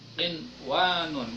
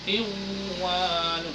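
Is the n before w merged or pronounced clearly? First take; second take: pronounced clearly; merged. First: The n before w is pronounced clearly. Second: The n before w is merged into w. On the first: The speaker calls it right. "harus melafalkannya seperti idhar" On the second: The speaker calls it wrong. "Enggak boleh"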